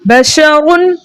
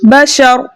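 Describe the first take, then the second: First: The word ends with a final n sound. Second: The word ends on a silent r, no n. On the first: The reader keeps going without a stop. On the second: The reader stops at this word.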